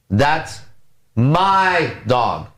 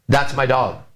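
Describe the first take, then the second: First: The stress is on the word my. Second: The stress is on the word dog.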